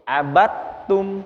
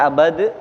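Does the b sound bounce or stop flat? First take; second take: bouncing; flat. First: The b sound bounces with an echoing release. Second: The b sound stops flat without a bounce. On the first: The speaker calls it right. "Qalqalah itu sifatnya itu mantul" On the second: The speaker calls it wrong. "Enggak abad"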